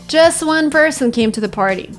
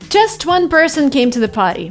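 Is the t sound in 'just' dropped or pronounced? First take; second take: dropped; pronounced. First: The t in just is dropped. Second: The t in just is clearly pronounced. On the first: The speaker calls it right. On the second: The speaker calls it wrong.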